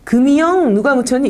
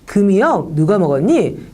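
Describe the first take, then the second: First: The consonant before the long pause sounds nasal. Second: The consonant before the long pause stays a stop. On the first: The speaker calls it wrong. "이렇게 말을 하지 않죠" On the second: The speaker calls it right. "이렇게 해서 윽 소리를 냅니다"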